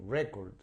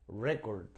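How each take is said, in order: The two takes are said the same way.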